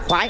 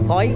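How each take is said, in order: First: It is said the Southern Vietnamese way. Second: It is said the Central Vietnamese way. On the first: "người miền Nam là khoái" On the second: "người miền Trung là khói"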